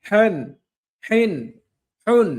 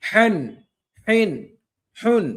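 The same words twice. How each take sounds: Both takes have the same delivery.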